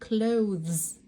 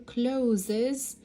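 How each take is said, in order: First: It ends in 'th' straight into z, no vowel. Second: An extra vowel comes before the final z. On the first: The speaker calls it right. "اللفظ الصح هو عم ينتهي بذ وبعدين ز" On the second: The speaker calls it wrong. "ما تقولوا closes"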